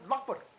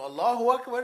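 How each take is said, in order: First: It is said fast with syllables squeezed out. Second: Every syllable is said clearly and fully. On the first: It is just a sound. The speaker calls it wrong. "it becomes Lakbar" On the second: It is a meaningful statement of praise. The speaker calls it right. "Allahu Akbar is clear"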